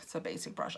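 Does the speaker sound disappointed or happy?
disappointed. It sounds flat and let down. The plain brush is a letdown. The speaker calls it wrong. "I don't say that like, oh"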